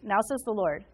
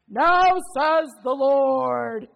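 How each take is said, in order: First: It is said in a casual, sarcastic tone. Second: It is said in a big, booming, bold voice. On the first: The listener should obviously already pay attention. "I kind of do this like sarcastic thing when I read it" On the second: The words are a grand, solemn proclamation. "Like this big booming voice"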